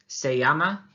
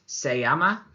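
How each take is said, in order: No difference in how they are said.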